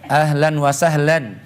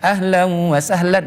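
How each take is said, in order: First: The n is pronounced clearly before wa. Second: The n merges nasally into the following wa.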